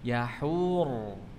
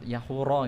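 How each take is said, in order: First: The word ends on a consonant, no vowel. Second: The word ends with an added final vowel. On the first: The speaker calls it right. "Yahura tapi yahur" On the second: The speaker calls it wrong. "Bukan yahura nggih"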